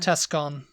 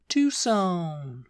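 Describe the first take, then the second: First: The name is pronounced the way it is spelled. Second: The name is pronounced the way locals say it. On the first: The speaker calls it wrong. "I actually did used to pronounce this Tucson" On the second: The speaker calls it right. "But it's actually"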